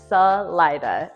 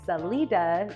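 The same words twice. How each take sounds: First: It is said with an English-style pronunciation. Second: It is said with a Spanish pronunciation. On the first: The speaker is a local. "they just said it how it looked to them" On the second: The speaker is a tourist. "you'll out yourself as a tourist or not a local"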